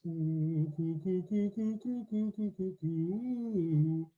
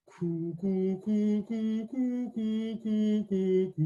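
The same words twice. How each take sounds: First: Round, hollow throat on each coo; long hollow coo. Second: Hollow coo. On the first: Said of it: "that sense of length and hollowness in the throat". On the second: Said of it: "Okay, try that again". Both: Shown as a demonstration.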